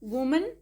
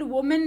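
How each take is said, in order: First: वुमन said WU-mun; वुमन with "-mun", not "-men"; correct pronunciation. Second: वुमेन said wo-men, with a full "e" at the end; वुमेन rhyming its last syllable with "pen"; wrong pronunciation. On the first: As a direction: reduce the end of वुमन to a schwa. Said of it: "लेकिन वुमेन नहीं होता है". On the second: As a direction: give वुमेन a clear "-men" ending. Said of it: "वुमेन नहीं होता है". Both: Shown as a demonstration.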